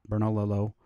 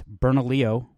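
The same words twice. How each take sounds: First: Bernalillo with hard L's, ending "lil-oh"; outsiders' mispronunciation. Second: Bernalillo said Spanish-style, ending "lee-oh"; correct local pronunciation. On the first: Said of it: "because it's Bernalillo". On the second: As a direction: say Bernalillo as "ber-na-LEE-oh", silent double L. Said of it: "not Bernalillo". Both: Shown as a demonstration.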